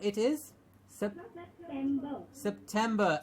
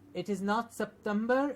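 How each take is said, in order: First: The middle t sound is clear. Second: The middle t sound is weak. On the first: The speaker calls it right. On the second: The speaker calls it wrong.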